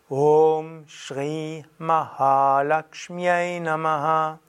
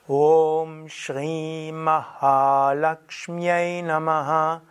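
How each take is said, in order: Both takes have the same delivery.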